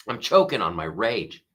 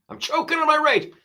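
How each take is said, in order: First: Said in the usual way. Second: Much higher, strained choked squeak; mock strangled rage. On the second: Shown as a demonstration. Host jokes about wildfire anger, high strained mock choke. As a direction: squeeze it out high like choking on fury.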